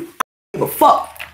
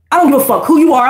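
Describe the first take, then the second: First: Whispered low, almost to herself; muttered under breath. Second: Said in the usual way. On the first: Real, not acted. Talking to herself before the camera, whispered under breath. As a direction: breathe the words under your breath first.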